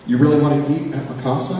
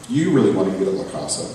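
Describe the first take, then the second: First: "really" lifted, question rising high; mother questioning son's choice, stress on really. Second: "you" punched, quicker, falling; stress on you. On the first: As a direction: doubt the choice by leaning on "really". Mother doubting son's pick. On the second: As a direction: flip it back, hit "you" hard. Son throws it back at her. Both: Acted.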